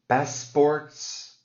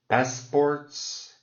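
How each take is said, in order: Both takes have the same delivery.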